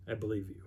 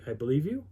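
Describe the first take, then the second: First: Soft, with "you" falling away; falling "I believe you". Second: "you" lifted at the end, tentative; rising "I believe you". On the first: Friend flip-flopping over the story, falling "I believe you". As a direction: let "you" drop quietly. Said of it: "like he's pulling petals off of a flower". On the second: Friend flip-flopping over the story, rising "I believe you". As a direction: let "you" rise like an open question. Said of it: "it was weird to hear him say". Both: Retold or imitated.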